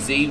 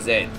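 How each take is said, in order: First: It is said in an American pronunciation. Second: It is said in an Australian pronunciation. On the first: "You say you say Z" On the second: "we say Z"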